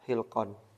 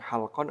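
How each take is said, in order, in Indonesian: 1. Vokal pertamanya 'i' tinggi. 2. Vokal pertamanya 'a' terbuka. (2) "halqan dengan fathah"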